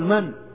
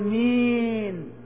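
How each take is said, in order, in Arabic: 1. الكلمة فيها صوت 'an' قصير وعادي. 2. الكلمة فيها صوت 'een' طويل ومُمال. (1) "هذه من" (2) "هذه الإمالة"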